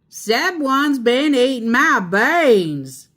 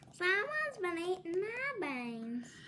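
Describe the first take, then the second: First: It is a big, rough, growling voice. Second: It is a mild, middle-sized voice.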